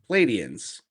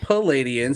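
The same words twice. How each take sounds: First: It begins with the cluster 'Pl'. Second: It begins with a full vowel: 'Pal'. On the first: The speaker calls it right. "It's P L" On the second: The speaker calls it wrong. "not Palladians"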